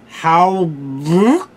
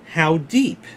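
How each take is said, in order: First: The words sound garbled and slurred. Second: The words sound clear and normal.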